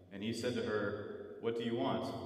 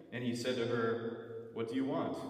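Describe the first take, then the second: The two takes are said the same way.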